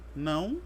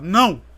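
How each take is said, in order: First: The word is said in a calm, neutral tone. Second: The word is said in a harsh, angry tone.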